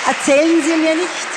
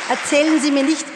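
No difference in how they are said.

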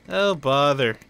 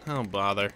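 First: A touch brighter, playful; mock exasperation. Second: Said in the usual way. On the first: Shown as a demonstration. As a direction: sigh it out like Pooh.

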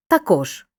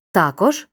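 First: "також" stressed on final кож; stress on second syllable. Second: "також" stressed on та; stress on first syllable. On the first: Teacher showing second accepted variant, stress on КОЖ. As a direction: hit the end, таКОЖ. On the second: Teacher showing first accepted variant, stress on ТА. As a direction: hit the start, ТАкож. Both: Shown as a demonstration. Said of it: "Подвійний наголос мають такі слова".

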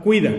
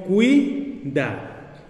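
First: Said in the usual way. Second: "cuida" slowly in two beats, "cui", pause, "da"; split into syllables. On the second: Shown as a demonstration. Teacher shows the vowels forming one syllable, "cuida" as cui-da. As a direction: hold "cui" together as one syllable, then "da". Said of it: "formar una sola sílaba".

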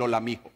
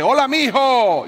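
First: Said in the usual way. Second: Put-on loud, high shout of a hard-of-hearing old man; voz alta de viejito. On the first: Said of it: "todo el bus escuchó el". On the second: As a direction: call it out across the bus. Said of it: "en tono altisonante dice". (grito fuerte de anciano sordo)

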